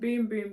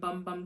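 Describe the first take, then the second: First: The vowel is a long oo, like boom. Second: The vowel is a short u, like bum. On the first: This is the official pronunciation. "That's how it says you pronounce it" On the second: This follows the written spelling. "this says Brazilian Bum Bum Cream, so that's what I'll be calling it"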